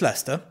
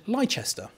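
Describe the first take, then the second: First: The name is said the local way. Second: The name is said in a non-local way. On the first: This is how the name is really said. The speaker calls it right. "but it's Leicester" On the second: This is how people who have never visited say it. The speaker calls it wrong. "anyone who's not been here calls it Leicester"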